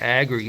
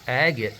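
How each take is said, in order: First: The word is said with an R sound. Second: The word is said without an R sound. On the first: The speaker calls it wrong. "I'm saying aggregate. There's no R" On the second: The speaker calls it right. "it's actually agate"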